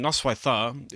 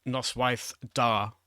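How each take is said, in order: First: Easy, flowing "Noswaith dda"; correct form. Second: Slow "Noswaith da" with a hard d on "da"; the incorrect "da" said slowly; wrong form. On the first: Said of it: "is really easy to say". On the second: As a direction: show the unmutated "Noswaith da", d hard. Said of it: "so it's not". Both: Shown as a demonstration.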